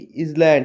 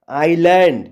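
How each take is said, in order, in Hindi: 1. s का उच्चारण z की ध्वनि जैसा होता है। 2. इस शब्द में s मौन है। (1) "ये गलत हो जाएगा" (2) "यहाँ पर एस साइलेंट हो गया"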